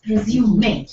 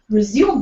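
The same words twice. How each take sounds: First: It is said as the French-style noun. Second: It is said as the everyday English verb. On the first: A document listing one's qualifications. "in the professional context" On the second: To continue something after a break. "this word resume becomes"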